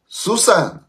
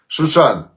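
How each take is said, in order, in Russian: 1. Название произносится со звуком «с». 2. Название произносится со звуком «ш». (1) "они ше не выговаривали" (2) "как город ваш называется?"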